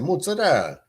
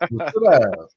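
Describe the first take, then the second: First: The word ends without the final vowel. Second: The word ends with a clear final vowel. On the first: The speaker calls it wrong. "You don't say the A" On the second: The speaker calls it right. "Call it mozzarella like the rest of us civilized people"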